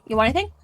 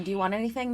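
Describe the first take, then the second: First: Anything with a rising Canadian lilt; Canadian politeness. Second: Said in the usual way. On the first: Shown as a demonstration. Friends act out overly polite Canadian offers. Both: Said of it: "speaking Canadian".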